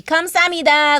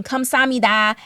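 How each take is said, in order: First: 감사합니다 higher and louder with a sung Korean lilt; Korean tones with voice. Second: 감사합니다 in a flat American accent. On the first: Learner showing proper Korean thanks, with tonal lilt. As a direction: give 감사합니다 a lifted Korean melody. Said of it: "It has to be". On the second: Learner demoing Korean thanks, American accent. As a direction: say 감사합니다 the American way, syllables even. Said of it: "in an American accent". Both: Shown as a demonstration.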